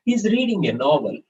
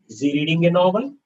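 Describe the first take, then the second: First: "He's reading a novel." high, then falling on "novel"; statement intonation. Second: "Is he reading a novel?" climbing to the end of "novel"; question intonation. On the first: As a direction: state it, letting "novel" drop. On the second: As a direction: ask it, pitch rising all the way through "novel". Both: Shown as a demonstration. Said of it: "change the intonation a little bit".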